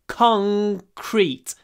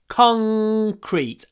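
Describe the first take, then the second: Both takes have the same delivery.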